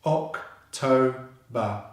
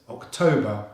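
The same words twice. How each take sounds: First: "October" in three slow, separate beats; syllable by syllable. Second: "October" as one whole word, stress on TO; syllables joined. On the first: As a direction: split "October" into oc, toe, ba. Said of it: "So together, that's October". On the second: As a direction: run "October" together, ending in a schwa. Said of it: "So together". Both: Shown as a demonstration.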